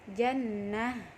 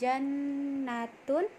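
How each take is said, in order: First: The word ends in a silent-vowel 'h' sound. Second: The word ends in a full 'tun' ending. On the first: The reader stops at this word. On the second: The reading continues without a stop.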